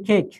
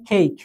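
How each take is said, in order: First: Said in the usual way. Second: কেক said with a clear ei glide like English cake; correct English cake. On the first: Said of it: "কিন্তু এটার উচ্চারণ হবে কেক". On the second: Shown as a demonstration. Tutor correcting how cadets say কেক, glided vowel. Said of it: "এটার উচ্চারণ হবে কেক".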